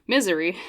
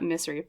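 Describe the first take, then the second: First: The middle consonant is a buzzing Z sound. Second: The middle consonant is a hissing S sound. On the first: The speaker calls it right. "a bit of a Z sound there" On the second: The speaker calls it wrong. "not misery"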